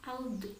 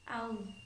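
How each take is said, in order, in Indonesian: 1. Konsonan akhir diakhiri dengan pantulan yang bergema. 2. Konsonan akhir diakhiri dengan halus tanpa pantulan. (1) "Tidak boleh dipantulkan seperti ini ya" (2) "Cara melafalkan yang benar sekali lagi seperti ini"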